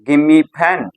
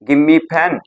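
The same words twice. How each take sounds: First: The words are squeezed together in reduced form. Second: The words are squeezed together in reduced form.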